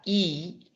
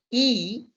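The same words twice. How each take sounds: First: I said with the teeth almost together; closed-teeth I. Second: I said with the mouth wide open. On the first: Teacher demonstrates I with teeth almost together. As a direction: keep the teeth nearly closed on I. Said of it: "con los dientes casi pegados". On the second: Teacher demonstrates I with mouth wide open. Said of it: "I con la boca bien abierta". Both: Shown as a demonstration.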